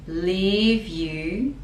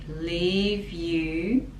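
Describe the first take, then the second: No difference in how they are said.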